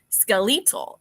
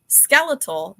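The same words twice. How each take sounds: First: It is said with the British narrator's pronunciation. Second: It is said in the speaker's usual pronunciation. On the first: "They pronounced skeletal" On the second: "the word that was pronounced just a little bit off"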